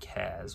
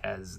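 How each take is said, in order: First: The name has an 'a' vowel, as in cat. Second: The name has an 'e' vowel, as in bed. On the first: "with an A" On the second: "with an E sound"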